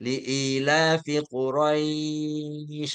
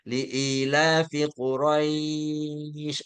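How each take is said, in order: First: The 'ai' in Quraisy is held four counts. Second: The same.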